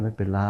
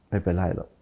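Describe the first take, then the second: First: "ไม่เป็นไร" said soft and low, gently letting it go; soft forgiving tone. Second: "ไม่เป็นไรหรอก" dropped much softer, curt and brushing it off; dismissive tone. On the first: (ไม่เป็นไร แบบอ่อนโยนให้อภัย) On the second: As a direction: brush it off coldly. (พูดปัดๆ ไม่ใส่ใจ) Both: Shown as a demonstration. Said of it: "เสียงมันต่างกัน".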